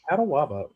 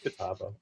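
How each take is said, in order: First: It has an extra syllable, four in all. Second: It has no extra syllable, three in all. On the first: The speaker calls it wrong. "I pronounced it Catawaba" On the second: The speaker calls it right. "it's Catawba"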